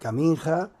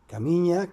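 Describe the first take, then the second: First: The middle consonant is an 'n' plus 'j' sound. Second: The middle consonant is a single 'ny' sound. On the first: This follows the way the name is written. The speaker calls it wrong. "se escribía Caminja" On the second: This is how the name is really said. The speaker calls it right. "pero era Camiña"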